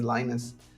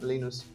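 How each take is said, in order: First: The name is read with English vowel sounds. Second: The name is read with Spanish vowel sounds. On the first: The speaker calls it right. "pero es Linus" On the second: The speaker calls it wrong. "en español lo leeríamos Linus"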